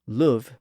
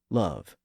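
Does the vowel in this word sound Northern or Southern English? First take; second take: Northern; Southern. First: It has the older Northern English vowel. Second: It has the newer Southern English vowel. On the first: This is the older pronunciation. "The northern part retained the older vowel sound" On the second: This is the newer pronunciation. "that vowel sound was starting to change in the south of England"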